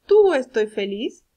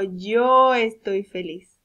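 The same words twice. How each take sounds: First: Tú loud and drawn out, rising at the end; stress on Tú. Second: Yo very long and loud; stress on Yo. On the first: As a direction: offer it as a questionable option, leaning on Tú. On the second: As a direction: stretch Yo slowly as the model answer. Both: Shown as a demonstration. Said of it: "¿cuál de los dos puedo usar?".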